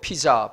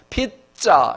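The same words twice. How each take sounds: First: The middle consonant is a plain, soft j. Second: The middle consonant is a tense, hard jj. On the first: The speaker calls it wrong. "우리 학생들이 자꾸 피자, 피자 이러면 제가 혼내고 발음을 고쳐줍니다" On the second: The speaker calls it right. "짜 비슷하게 피자 이렇게 해야 정확한 발음이에요"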